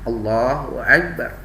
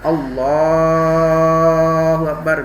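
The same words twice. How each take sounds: First: It is said quickly with short vowels. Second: It is said slowly with drawn-out vowels. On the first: The speaker calls it right. "Cepat tetap menggunakan itu" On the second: The speaker calls it wrong. "jangan kemudian kita berpanjang itu uh, lafadznya"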